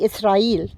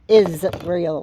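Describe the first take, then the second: First: The second sound is a hissing s. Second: The second sound is a buzzing z. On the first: "we say Israel" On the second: "with a Z"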